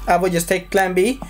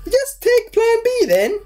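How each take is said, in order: First: Said in the usual way. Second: Very high, squealed put-on voice; hammed-up falsetto; squeaky villain quote. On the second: Acts out the villain's scene.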